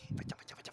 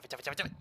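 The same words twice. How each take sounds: First: Hushed, breathy go-away to the cat; whispered shooing. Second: Said in the usual way. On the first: Real, not acted. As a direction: shoo the cat away under your breath. Chasse le chat en chuchotant. (chuchoté pour chasser le chat)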